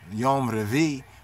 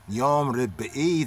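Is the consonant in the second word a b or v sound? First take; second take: V sound; B sound. First: The second word has a v sound, two syllables. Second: The second word has a b sound, three syllables. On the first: It reflects a Yiddish-speaking dialect. The speaker calls it wrong. "they'll say Yom Revi, ... because of their dialect, their mother tongue" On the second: It is the more correct Hebrew form. The speaker calls it right. "While more correctly, it will be Yom Rebi"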